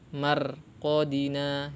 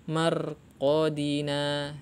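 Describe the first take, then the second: No difference in how they are said.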